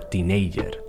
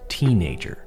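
First: The stress is on the second syllable. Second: The stress is on the first syllable. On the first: The speaker calls it wrong. "A lot of my students say teenager or teenager. They place the emphasis on the second syllable" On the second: The speaker calls it right. "the stress should be placed on the first of 3 syllables"

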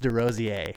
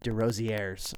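First: The name is pronounced in a French way. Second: The name is pronounced in an English way. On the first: The speaker calls it right. "But it's Desrosiers" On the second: The speaker calls it wrong. "I have a bad habit of calling him Desrosiers"

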